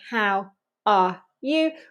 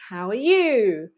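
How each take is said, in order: First: The words are kept apart without a linking w. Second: The words are joined by a small w sound. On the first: The speaker calls it wrong. "we don't say how are you" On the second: The speaker calls it right. "we join everything together with a little wa"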